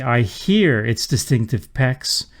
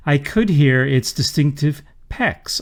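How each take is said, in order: First: Slow reading that leans on "hear"; stress on hear. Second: "could" made the most prominent word; stress on could. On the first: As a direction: make "hear" the most prominent word, slowly. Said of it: "focuses the mind in the reader on the hearing". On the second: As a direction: lean on "could" ahead of the main verb. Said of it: "could distracts from the verb hear". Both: Shown as a demonstration.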